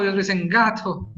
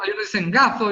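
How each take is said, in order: First: "gato" said with a crisp ordinary t, ending in a falling tone; gato with a plain t. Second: "gato" said as gaθo, the t softened to a lisped th; gato with a th sound. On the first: Teacher contrasting for students the plain t in "gato". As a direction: say "gato" with a clean t. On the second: Teacher showing students one regional way to say "gato" as gaθo. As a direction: say "gato" with a th in place of the t. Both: Shown as a demonstration. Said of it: "también para gato".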